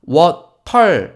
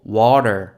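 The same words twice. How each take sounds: First: The middle t is a crisp, hard t. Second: The middle t is a soft flap. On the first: The speaker calls it wrong. "water 아니고" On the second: The speaker calls it right. "T 발음이 마치 리을처럼 들리지 않으십니까?"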